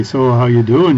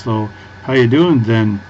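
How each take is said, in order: First: Put-on Fargo Minnesota accent. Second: Put-on light Minnesota accent, slower, with "then" tacked on the end; Fargo accent with "then". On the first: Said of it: "and they say". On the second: Quoting Fargo characters who add "then", light Minnesota accent, slower. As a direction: ease "then" onto the end like a Fargo local. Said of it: "they say words like "then" on the end".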